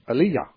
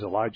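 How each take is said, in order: First: The name is said in a Hebrew form. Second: The name is said in an English form. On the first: "they pronounced the words in the Hebrew pronunciation" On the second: "I'm not familiar with that pronunciation"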